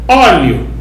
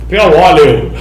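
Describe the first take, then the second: First: The word ends in a diphthong, two syllables. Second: The word ends split apart, three syllables. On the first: It is treated as a word stressed on the second-to-last syllable. "Eu falo óleo, ... Para mim é paroxítona terminando de tongo" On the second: It is treated as a word stressed on the third-to-last syllable. "a P R quatro considera como óleo"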